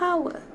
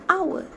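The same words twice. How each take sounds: First: The word starts with an audible h sound. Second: The word starts with a vowel, h silent. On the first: The speaker calls it wrong. "not hour" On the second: The speaker calls it right. "we pronounce the word hour as hour"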